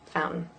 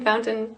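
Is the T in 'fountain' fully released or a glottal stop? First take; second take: glottal stop; released. First: The T is replaced by a glottal stop. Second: The T in the middle is clearly pronounced. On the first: It is the ordinary everyday way most people say it. "if you want to be a normie, a normal kind of person" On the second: It is the careful way this speaker says it. "I would probably say mountain and fountain"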